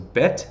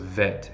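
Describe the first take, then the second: First: It begins with a hard b sound. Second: It begins with a soft v sound.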